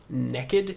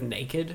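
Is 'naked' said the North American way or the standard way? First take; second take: North American; standard. First: The word has a North American pronunciation. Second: The word has a standard pronunciation. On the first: "Americans sometimes, I think maybe Canadians sometimes say naked" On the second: "instead of naked"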